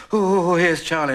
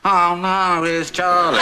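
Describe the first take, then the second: First: High, drawn-out, mock-eager coo; mock delight. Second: High, loud imitation of dread; mock dismay. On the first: Father mimicking last month's welcome of Charlie, mock delight. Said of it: "for the last month it's been". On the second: Father mimicking the new reaction to Charlie, mock dismay. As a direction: mimic a dismayed wail, loudly. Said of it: "and now it's".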